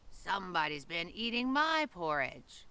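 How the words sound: It is said in a medium, moderately growly voice. A medium-sized creature is speaking. "in her medium-sized growly voice"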